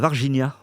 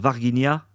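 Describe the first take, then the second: First: The name is pronounced the Brazilian Portuguese way. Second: The name is pronounced the French way. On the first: The speaker calls it right. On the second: The speaker calls it wrong.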